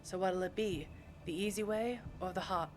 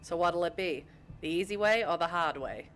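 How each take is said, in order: First: Put-on tentative New York accent. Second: Broad Boston accent with dropped R's; Boston-accented tough talk. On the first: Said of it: "I can try to do a New York accent". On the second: Shown as a demonstration. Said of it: "I can do my Boston accent".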